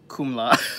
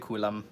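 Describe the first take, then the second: First: The consonants come in the order k-m-l. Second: The consonants come in the order k-l-m. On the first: The speaker calls it wrong. "I did say Kumla, didn't I? Oh, that's so bad" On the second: The speaker calls it right. "I meant to say Kulam"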